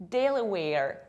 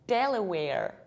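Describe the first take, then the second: No difference in how they are said.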